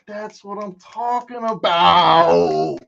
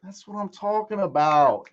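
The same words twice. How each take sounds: First: Slow, louder, stretched-out gloat; higher, loud, slow victory call; triumphant drawl. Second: Said in the usual way. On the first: Real, not acted. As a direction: savor every word of the win. Drawn-out triumphant repeat.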